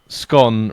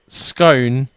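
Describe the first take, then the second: First: The vowel is a short 'o', like 'gone'. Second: The vowel is a long 'oh', like 'known'. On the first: "rhyming with nom" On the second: "rhyming with known"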